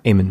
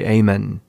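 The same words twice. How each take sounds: First: The final n sound is short. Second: The final n sound is held long. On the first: The speaker calls it wrong. "and not Aymann" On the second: The speaker calls it right. "The double N is important because in the Arabic you say Aymann"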